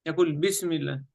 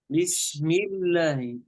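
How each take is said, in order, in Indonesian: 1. Bunyi s dipotong sangat pendek. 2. Bunyi s ditahan sesuai waktunya. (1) "كثير يقرأ السين خطأ، يختلس الحرف هكذا" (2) "لابد نعطي الحرف وقته من الزمن"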